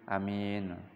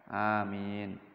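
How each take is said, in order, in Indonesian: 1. Vokal pertama adalah a pendek. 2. Vokal pertama adalah a panjang. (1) "Yang kedua dibaca pendek hamzanya" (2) "yang paling fasih amin"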